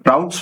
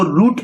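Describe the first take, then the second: First: It is said the British way, rhyming with 'outs'. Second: It is said the American way, rhyming with 'boot'.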